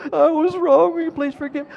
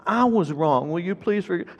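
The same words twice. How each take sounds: First: Put-on very high little-boy voice; high mock-child echo; parroting child. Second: Put-on slightly raised, earnest parent correcting a child; retold apology, gently insistent. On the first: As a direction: squeak the apology back like an obedient kid. Imitates son parroting the apology again. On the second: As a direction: stress that the fault is yours. Father correcting the child's echoed apology.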